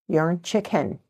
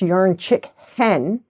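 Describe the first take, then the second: First: The phrase is said quickly, run together. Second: The phrase is said slowly, split into parts. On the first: "if you say it quickly" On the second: "it's yarn chick hen"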